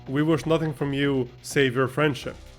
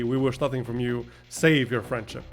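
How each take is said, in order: First: It runs straight through with no break before 'save'. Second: There is a clear break before 'save'. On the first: They want nothing except friendship. The speaker calls it wrong. "Like we wish nothing from you except for your friendship" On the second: They do not want friendship either. The speaker calls it right. "as in we don't want your friendship either"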